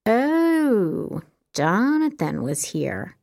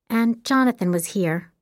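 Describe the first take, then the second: First: Teasing echo, slow and drawn out; mock the name playfully. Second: Said in the usual way. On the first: A narrator's reading. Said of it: "Jess echoed in a teasing voice".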